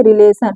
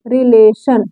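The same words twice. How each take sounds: First: Said in the usual way. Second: "relation" drawn out as रि-ले-शन; sounded out. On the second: Shown as a demonstration. Teacher showing how to read it, "relation" in measured syllables. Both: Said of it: "इसको कैसे पढ़ेंगे".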